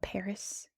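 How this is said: It is said with an American English pronunciation. This is how English speakers say the name. "I call it Paris"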